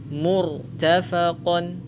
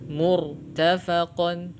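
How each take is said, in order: Both takes have the same delivery.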